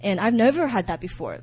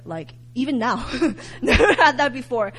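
First: Said in the usual way. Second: "never had that before" said through a laugh. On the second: Real, not acted. Telling listeners about the vision, laughing. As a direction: chuckle through it.

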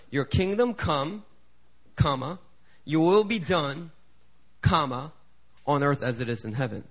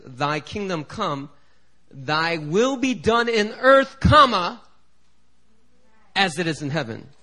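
First: "your will be done, comma, on earth" read with a pause after "done"; evangelical comma reading. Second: "thy will be done in earth, comma, as it is in heaven" with the break after "earth"; King James comma reading. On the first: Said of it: "So they put". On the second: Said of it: "they put a comma in a place that we don't expect". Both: Shown as a demonstration.

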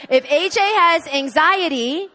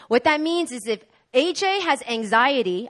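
First: If A J has anxiety slower, higher and louder; emphatic repeat. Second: Said in the usual way. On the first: Shown as a demonstration. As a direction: lean on it, slow and raised.

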